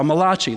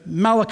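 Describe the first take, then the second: First: The name is said with an Italian-sounding pronunciation. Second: The name is said in a plain English way.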